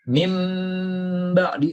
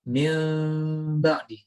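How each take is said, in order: First: The m is said with lips pressed firmly. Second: The m is hidden with lips lightly touching. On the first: The speaker calls it wrong. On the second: The speaker calls it right. "kita samarkan"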